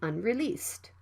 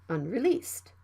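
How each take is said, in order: The two takes are said the same way.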